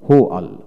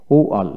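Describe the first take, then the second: First: হোয়াল with h before the w; American hw in হোয়াল; American pronunciation. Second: ওয়াল with a plain w; British w at the start of ওয়াল; British pronunciation. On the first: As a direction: start হোয়াল on an h. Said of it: "হোয়াইট হলো American". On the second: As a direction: open ওয়াল with no h. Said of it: "হোয়াইট হলো British". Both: Shown as a demonstration.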